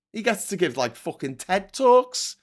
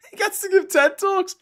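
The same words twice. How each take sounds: First: Said in the usual way. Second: Incredulous. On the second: Real, not acted. Incredulous rant, laughing.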